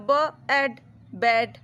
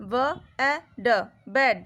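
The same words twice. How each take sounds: First: ব split from অ্যাড with a short pause, then blended into ব্যাড; onset and rime blending. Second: Each sound of ব্যাড said apart with a pause, then the whole word; sounding out letter by letter. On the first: Teacher to pupils, the other way to read ব্যাড, onset then rime. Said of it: "না হলে". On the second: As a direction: sound out ব, এ, ড one by one, then blend them into ব্যাড. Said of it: "তোমরা এভাবেই পড়তে পারো". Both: Shown as a demonstration.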